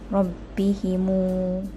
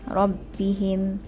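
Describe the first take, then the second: First: The final m is followed by a u vowel. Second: The word ends on a bare m sound. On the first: "silah mim al-jama' ini akan dihubungkan dengan waw pada mim itu" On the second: "sukunkan mim al-jama' itu berbunyi rabbihim"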